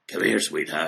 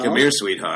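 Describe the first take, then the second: First: The voice is much more raspy. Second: The voice is only slightly raspy.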